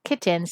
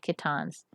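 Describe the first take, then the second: First: It is said like the word kittens. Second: It ends with an 'ans' sound, not 'ens'. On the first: The speaker calls it wrong. "That sounds like kittens. It's not kittens" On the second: The speaker calls it right. "Let's say kittans"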